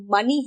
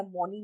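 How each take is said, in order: First: मनी as "MUH-nee"; मनी rhyming with "funny"; correct pronunciation of मनी. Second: मनी as "MOH-nee", lower and much softer; मनी with an o vowel, not uh; wrong pronunciation of मनी. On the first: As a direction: say मनी with a short uh vowel. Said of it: "और मनी है". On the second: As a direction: say मनी with a round o. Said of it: "मनी नहीं है". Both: Shown as a demonstration.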